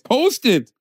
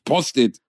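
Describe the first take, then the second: First: The word is pronounced the English way. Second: The word is pronounced the German way. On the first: The speaker calls it right. "Es heißt Post-it. Es ist Englisch" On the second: The speaker calls it wrong. "Nicht Post-it"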